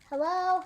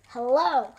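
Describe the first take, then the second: First: The voice calls out loudly to someone. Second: The voice sounds angry and harsh. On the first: "calling out"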